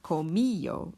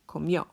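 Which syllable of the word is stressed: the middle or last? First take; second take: middle; last. First: The stress falls on the middle syllable. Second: The stress falls on the last syllable. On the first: The speaker calls it wrong. "It's not comillo" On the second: The speaker calls it right. "it's comió. Emphasis on the O"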